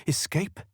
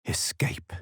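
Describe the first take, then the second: First: Questioning. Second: Whispered. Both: Acted. Chicken considering escape.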